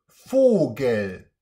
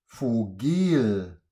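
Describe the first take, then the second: First: The stress is on the first syllable. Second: The stress is on the second syllable. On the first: The speaker calls it right. "die laute Silbe ist vorne" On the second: The speaker calls it wrong. "Es heißt ja nicht Vogel"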